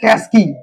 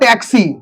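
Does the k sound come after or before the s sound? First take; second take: After; Before. First: The s sound comes before the k. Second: The k sound comes before the s. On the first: "ট plus এ plus দন্তেশ্ব plus ক plus হর্ষই" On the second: "ট plus এ plus ক plus দন্তেশ্ব plus হর্ষই"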